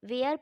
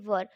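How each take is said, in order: First: The vowel sounds like 'air'. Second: The vowel sounds like 'er'. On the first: The speaker calls it wrong. "इसे बहुत लोग वेयर पढ़ते हैं, लेकिन ये इसकी करेक्ट प्रोनाउंसिएशन नहीं होती है" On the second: The speaker calls it right. "इसे हम लोग वर पढ़ते हैं"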